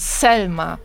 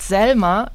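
First: The name starts with a sharp, voiceless S. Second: The name starts with a soft, voiced S. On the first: The speaker calls it right. "Selma mit scharfem S" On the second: The speaker calls it wrong. "Nicht Selma"

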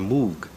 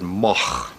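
First: The name is said the English way. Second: The name is said the Dutch way.

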